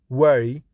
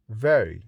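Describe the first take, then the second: First: Very said as wery, with a w and lips rounded; Very with w in place of v. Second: Very with a clear v, teeth on lip; very with a proper v. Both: Shown as a demonstration.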